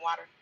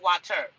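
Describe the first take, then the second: First: The middle consonant is a soft D-like sound. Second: The middle consonant is a crisp T sound. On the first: "it's just sounding like it should have been spelled W A D D E R" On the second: "You're not gonna say water"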